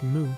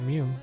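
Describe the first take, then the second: First: The vowel is a plain oo sound. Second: The vowel has a y sound before oo. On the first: The speaker calls it right. "Pronounced Moo" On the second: The speaker calls it wrong. "not Mew"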